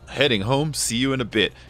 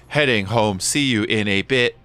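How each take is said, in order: First: It is read in the speaker's natural voice. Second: It is said in an imitated text-to-speech voice.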